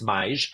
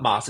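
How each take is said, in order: First: The vowel glides from 'ah' toward 'ee'. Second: The vowel is a plain 'ah' sound. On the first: The speaker calls it right. "it's mais" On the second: The speaker calls it wrong. "it's not mas"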